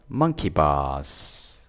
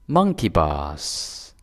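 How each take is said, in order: No difference in how they are said.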